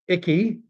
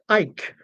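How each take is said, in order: First: The name is said with two syllables. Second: The name is said with one syllable. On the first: "is how I'm pronouncing it" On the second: "it's pronounced Ike, as in [name] and [name]"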